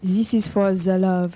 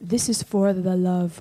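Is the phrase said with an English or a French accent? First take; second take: French; English. First: It is said with a French accent. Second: It is said with an English accent.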